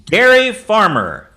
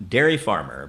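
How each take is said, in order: First: Loud, slow, higher announcement; big drawn-out game-host call; announcing the suggestion. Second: Dropped-pitch echo of the suggestion; much lower second call; low repeat. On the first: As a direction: proclaim it to the room. Host announces the suggestion, first take. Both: Real, not acted.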